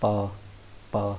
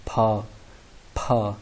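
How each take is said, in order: First: पा with lips pressed together and no puff of air; unaspirated demo. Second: फा with a strong burst of breath after the p, pushed out louder; aspirated demo. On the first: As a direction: say पा crisply, no breath after the p. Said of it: "बी को पढ़ रहे हैं हम पा". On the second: Teacher showing students the aspirated initial, breathy burst on फा. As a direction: blow a puff of air on फा, enough to move a page. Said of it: "इसको पी को प्रोनाउंस करें". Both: Shown as a demonstration.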